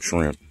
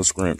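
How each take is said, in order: First: Said in the usual way. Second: SCRIMP with an sk sound in place of sh; dialect pronunciation. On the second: Shown as a demonstration. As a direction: say "scrimp", opening on s-k-r. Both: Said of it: "I know how y'all be saying it".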